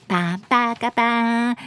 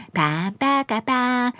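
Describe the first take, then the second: No difference in how they are said.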